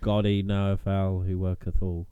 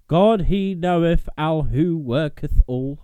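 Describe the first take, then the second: First: It is read in a plain voice. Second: It is read in a dramatic voice.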